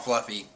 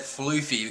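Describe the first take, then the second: First: The first vowel is a short 'uh' sound. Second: The first vowel is a long 'oo' sound. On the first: It sounds like a fat cat's name. "I like Fluffy better because he's fat, and a lot of fat cats are called Fluffy" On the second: It matches the original character's name. "pronounced like Luffy, but with the F"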